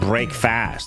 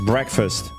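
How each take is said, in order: First: The second syllable has a full 'fast' vowel. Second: The second syllable has a reduced schwa vowel. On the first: The speaker calls it wrong. "It's not break fast" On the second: The speaker calls it right. "It's breakfast. ... it's like a schwas"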